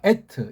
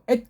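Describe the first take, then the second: First: The word ends with an added final vowel. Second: The word ends on a bare final consonant. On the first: "그냥 에트라고 읽으면 되지만" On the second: "우리의 특수한 식이 이걸 에트라고 읽지 않고 엣 그렇게"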